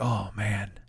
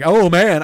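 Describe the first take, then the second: First: It is said quietly, as if to oneself. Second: It is said loudly, as if to others. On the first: It is said only to oneself. The speaker calls it right. "that's to me. ... I'm like" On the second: It is addressed to other people. The speaker calls it wrong. "I don't say that like"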